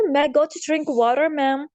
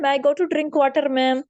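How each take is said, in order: First: It is said in an American accent. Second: It is said in a South Asian accent. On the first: "America में लोग पढ़ते हैं" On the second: "बच्चे यहाँ पर school में बोलते हैं ... ये गलत है"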